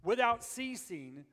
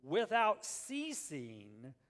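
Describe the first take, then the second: First: "Without ceasing" louder and slow; loud stress. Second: "without ceasing" drawn out very slowly; stressed slowly. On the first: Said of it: "it's kind of redundant". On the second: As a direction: stretch "without ceasing" word by word. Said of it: "listen to this". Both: Shown as a demonstration.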